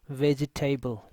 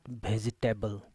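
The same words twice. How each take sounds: First: It starts with a v, teeth on lip. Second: It starts with a different, non-v sound. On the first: The speaker calls it right. "this is vegetable" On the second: The speaker calls it wrong. "not vegetable"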